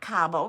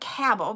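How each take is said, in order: First: The first syllable does not sound like 'cab'. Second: The first syllable sounds like 'cab'. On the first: The speaker calls it wrong. "not Cabo" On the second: The speaker calls it right. "but Cabo, because it's a cabochon"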